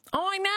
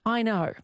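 First: High, hammed-up Aussie twang; broad Australian accent. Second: Said in the usual way. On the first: Researcher marvels at Australians' ranking, mock broad Australian accent. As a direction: exaggerate the Australian vowels, pitched high. Hams up the ranked home accent.

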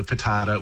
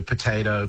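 First: Potato with an AH vowel; joke variant pronunciation. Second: Potato with the long AY vowel; American pronunciation. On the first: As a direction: say potato as "po-TAH-to". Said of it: "Well, not potato". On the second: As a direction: say potato as "po-TAY-to". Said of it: "America often stands alone with these". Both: Shown as a demonstration.

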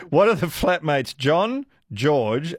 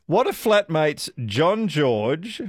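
First: Slower, with a deliberate pause between "John," and "George"; careful corrected reading with a pause at the comma; clear pause after John. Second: Said in the usual way. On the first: Shown as a demonstration. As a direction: read "John, George" as two separate names with a comma break. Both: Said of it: "there's a comma in between those".

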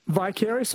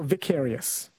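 First: "vicarious" with a long i, vy-CARE-ee-us; first syllable of "vicarious" rhymes with "eye"; long-i pronunciation. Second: "vicarious" with a short i, vik-AIR-ee-us; first syllable of "vicarious" rhymes with "pick"; short-i pronunciation. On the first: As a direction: say "vicarious" opening like "vie". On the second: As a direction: say "vicarious" opening like "Vic". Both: Shown as a demonstration. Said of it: "Do you say".

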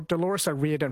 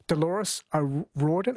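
First: "O'Riordan" said as "oh-REE-dun"; "O'Riordan" with an EE vowel in the middle; corrected name pronunciation. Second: "O'Riordan" said as "oh-RAW-dun"; a tentative "O'Riordan" with an AW vowel; unsure name pronunciation. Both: Real, not acted. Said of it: "is it Riordan?".

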